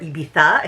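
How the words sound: It is pronounced the Spanish way.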